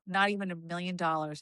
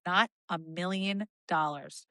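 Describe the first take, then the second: First: Firm refusal. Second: "Not a million dollars" said slowly, each word weighed, NOT leaned on; slower firm refusal. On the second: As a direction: drag it out to close the matter. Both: Retold or imitated. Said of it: "I go".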